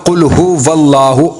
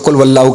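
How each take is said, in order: First: The second word begins with a hu sound. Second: The second word begins with a wa sound. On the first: The speaker calls it right. "उसको बोलना कुल हुवल्लाहु" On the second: The speaker calls it wrong. "बहुत से लोग इसको कुल वल्लाहु कह देते हैं"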